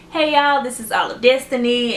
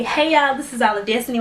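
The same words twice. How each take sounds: First: Bright, lively channel greeting; cheerful signature intro; upbeat intro. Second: Said in the usual way. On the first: Retold or imitated. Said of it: "I was like". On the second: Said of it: "I didn't even say".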